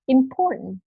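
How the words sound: The t is replaced by a nasal release. "for American accent, they usually say important"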